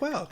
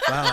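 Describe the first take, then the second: First: It sounds pleased and impressed. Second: It sounds offended and taken aback.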